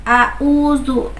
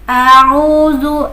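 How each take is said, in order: First: Both consonant sounds are plain glottal stops. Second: The second consonant is a throaty ain sound. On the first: The speaker calls it wrong. "Jangan sampai a'udzu. Nah, itu berarti sama-sama hamzah" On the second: The speaker calls it right. "pun bisa a'udzu. Nah, yang kedua adalah ain"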